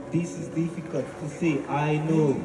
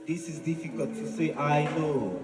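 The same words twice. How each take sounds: The two takes are said the same way.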